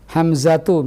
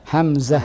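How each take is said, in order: First: The final t is voiced with a following u. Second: The word ends in a stopped h sound. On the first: "misalnya kita matikan ta' marbutahnya" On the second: "Kalau kita matikan ta' marbutah ini bagaimana bunyinya?"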